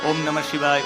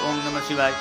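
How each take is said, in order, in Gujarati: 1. તે ધીમેથી બબડાય છે, હોઠ હલતા રહે છે. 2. તે ધીમેથી બબડાય છે, હોઠ હલતા રહે છે.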